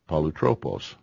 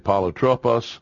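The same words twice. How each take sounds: First: The short o vowels sound like 'oh'. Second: The short o vowels sound like 'ah'. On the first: "I was saying it right" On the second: "who insists the short O be pronounced ah instead of O"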